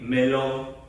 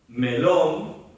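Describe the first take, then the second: First: It is said flatly, like a robot. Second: It is said naturally, with expressive intonation.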